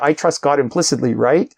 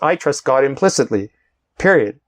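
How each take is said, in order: First: It ends with a rising, questioning tune. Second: It ends with a falling, certain tune.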